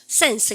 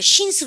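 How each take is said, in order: First: It is said with a crisp English S. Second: It is said with a Korean-style S. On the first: The speaker calls it right. "S 발음은 입을 옆으로 쫙 벌리시고 스" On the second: The speaker calls it wrong. "신스 그러면 안 돼요"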